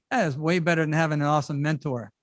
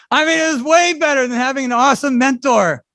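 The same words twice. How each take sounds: First: Said in the usual way. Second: "way" punched, the whole line louder and higher; emphatic restatement. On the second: Real, not acted. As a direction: hammer home "way better".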